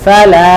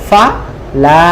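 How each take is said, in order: First: The two syllables are said quickly and joined. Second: The two syllables are said slowly and apart.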